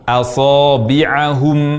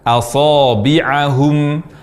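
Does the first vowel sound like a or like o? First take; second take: a; a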